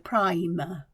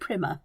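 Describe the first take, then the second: First: The first vowel is long, like 'eye'. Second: The first vowel is short, as in 'prim'. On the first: The speaker calls it right. "that long letter" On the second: The speaker calls it wrong. "because that would be prim"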